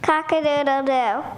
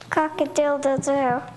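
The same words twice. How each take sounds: First: It is crowed a little louder. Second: It is crowed softly.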